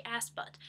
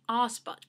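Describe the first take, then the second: First: "ass butt" with a short American a in "ass"; "ass butt", short open a, no r; American-style ass. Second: "arse butt" with a long ah in "arse"; "arse butt", long open ah instead of a short a; Australian arse. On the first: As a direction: say "ass butt" with the flat vowel of "cat" in "ass". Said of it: "technically I should be saying arse butt". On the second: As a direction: say "arse butt" the Australian way, broad vowel, silent r. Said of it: "technically I should be saying". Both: Shown as a demonstration.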